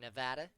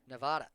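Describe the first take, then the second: First: It uses the pronunciation people from there use. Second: It uses the pronunciation common outside the state.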